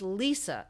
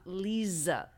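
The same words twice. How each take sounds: First: The middle consonant is a hissing s sound. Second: The middle consonant is a buzzing z sound. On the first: The speaker calls it right. "it's Lisa" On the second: The speaker calls it wrong. "not Lisa. They always think it's going to be a Z"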